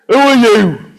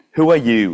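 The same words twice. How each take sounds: First: Put-on loud, high-pitched northern accent; startled yell with a northern accent. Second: Said in the usual way. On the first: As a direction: shout it out in a broad northern accent. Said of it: "Perhaps not in that northern accent". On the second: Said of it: "let me read verse nine again".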